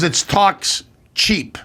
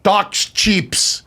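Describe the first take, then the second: First: "talks cheap" slowly spaced out, no s on "cheap"; corrective line reading. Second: Put-on actress's French-accented English. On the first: Retold or imitated. Brother correcting his actress's line, slow and separated. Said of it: "my brother, "Cut, cut." He goes". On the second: Actress delivers her porn line, French accent. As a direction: say it with a French accent, extra s on "cheaps". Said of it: "because of her French accent".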